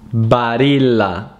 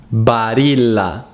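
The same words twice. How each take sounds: First: The name is said with an Italian pronunciation. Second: The same.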